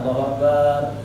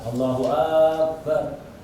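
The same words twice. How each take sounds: First: The second vowel of akbar is drawn out long. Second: The first vowel of akbar is drawn out long. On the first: It turns the word into the word for a drum. "baknya dipanjangkan" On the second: It becomes a question asking whether God is great. "Hamzanya akbar itu dipanjangkan"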